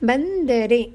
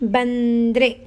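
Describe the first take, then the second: First: Every syllable is said in full. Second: A middle vowel is dropped, shortening the word. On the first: This is the formal written form. "ಗ್ರಾಂಥಿಕ ಭಾಷೆ" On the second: This is the everyday spoken form. "ಆಡು ಭಾಷೆ"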